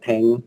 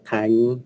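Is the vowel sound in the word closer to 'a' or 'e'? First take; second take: e; a. First: The vowel sounds like an 'e' vowel. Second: The vowel sounds like an 'a' vowel. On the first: The speaker calls it right. "Là vần E đấy chứ không phải là vần A đâu" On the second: The speaker calls it wrong. "Không có vần A. Ví dụ như là mạnh hoặc là thành"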